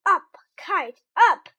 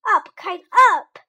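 First: High, loud command to the kite; shouting. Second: High, loud shout at the kite. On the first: Frog showing Toad what to shout at the kite, loud high shout. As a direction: yell it up at the sky. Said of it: "and shout". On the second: Toad shouting at the kite to make it fly, loud and high. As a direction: call it out hard and high. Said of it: "He shouted". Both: Acted.

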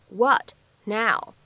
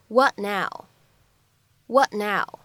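First: "what" and "now" said separately, a gap between; words apart. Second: "what now" joined, the t of "what" held unreleased; incomplete plosion. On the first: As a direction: say "what", pause, then "now". (“what”和“now”分开读) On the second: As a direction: stop the t in "what" and go straight into "now". (“what now”中t不完全爆破，连着读出) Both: Shown as a demonstration. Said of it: "会有一个不完全爆破的处理".

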